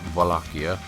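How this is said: It is pronounced the Slavic way. "the Slavics probably say it more like Wallachia"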